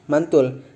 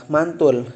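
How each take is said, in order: The two takes are said the same way.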